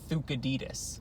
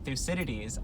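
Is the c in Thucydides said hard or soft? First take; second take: hard; soft. First: The c is said as a hard k sound. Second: The c is said as a soft s sound. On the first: The speaker calls it right. "it's supposed to be" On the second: The speaker calls it wrong. "we've been mispronouncing his name ... a soft C like that"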